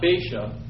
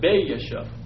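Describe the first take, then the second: First: The two A vowels merge into one sound. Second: The two A vowels are said as separate sounds. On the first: The speaker calls it wrong. "Not Baasha" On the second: The speaker calls it right. "you kind of break them up when you pronounce them"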